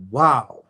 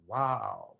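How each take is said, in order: First: A bright, louder exclaimed wow. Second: A soft, stunned wow under the breath; quietly floored by a realization; hushed awe. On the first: Someone's light bulb goes off, loud astonished wow. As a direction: blurt it out, suddenly getting it. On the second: Someone's light bulb goes off years later, hushed awe. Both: Retold or imitated.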